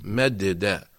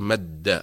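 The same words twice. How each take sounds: First: Low, "مد داء" with two separate dals; original unmerged form. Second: "مد" with the two dals merged into one held dal; doubled consonant. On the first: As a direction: pull "مد داء" apart at the doubled dal. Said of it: "أصلها". (نطق "مد داء" مفكوكة، دال ساكنة ثم دال مفتوحة) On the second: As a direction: hold the shadda in "مد", then release. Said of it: "في الشد نقول". (نطق "مد" بالشدة، دال واحدة مشددة) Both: Shown as a demonstration.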